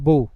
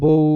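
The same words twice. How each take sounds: First: The final vowel is cut short abruptly. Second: The final vowel is drawn out fully. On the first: The speaker calls it right. "থেমে যাচ্ছি" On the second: The speaker calls it wrong. "আমরা বউ এভাবে বলি না"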